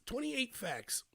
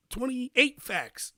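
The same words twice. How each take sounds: First: Said in the usual way. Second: Twenty-eight facts drawn out very slowly; slow emphasis. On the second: Shown as a demonstration.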